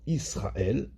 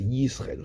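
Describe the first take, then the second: First: The word starts directly with a vowel. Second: The word starts with a clear y sound. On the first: The speaker calls it wrong. "Pas qu'il soit avalé et qu'on entende Israël" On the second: The speaker calls it right. "alors que c'est Yisrael"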